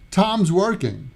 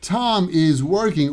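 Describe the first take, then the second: First: The word 'is' is contracted onto Tom. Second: The word 'is' is said in full. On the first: "often becomes Tom's working" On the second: "Tom is working often becomes"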